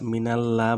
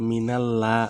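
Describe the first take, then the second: No difference in how they are said.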